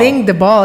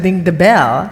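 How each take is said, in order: First: "ball" with an open aw vowel; wrong vowel in BALL. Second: Said in the usual way. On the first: Shown as a demonstration. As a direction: say "Ding the ball", aw where "bell" belongs. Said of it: "instead of ding the bell". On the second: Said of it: "Ding the ball instead of".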